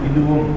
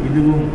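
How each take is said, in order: Both takes have the same delivery.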